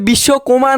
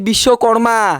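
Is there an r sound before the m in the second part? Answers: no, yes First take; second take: no; yes. First: The second part sounds like koma, without r. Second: The second part sounds like karma, with r. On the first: The speaker calls it wrong. "মানে পৃথিবী আর কমা না" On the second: The speaker calls it right. "ওইটা হচ্ছে বিশ্বকর্মা"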